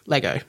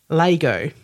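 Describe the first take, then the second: First: It is said with the generally accepted pronunciation. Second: It is said with a South Australian pronunciation. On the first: "it is generally accepted that Lego is Lego" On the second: "I am also South Australian, and so until moving east, pronounced Lego"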